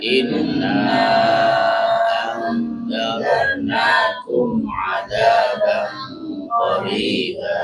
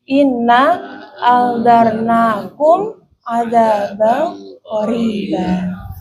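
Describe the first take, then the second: First: Long vowel, and the final mim is closed. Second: Short vowel, and the final mim is closed. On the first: "mat sukun" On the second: "qasar sukun"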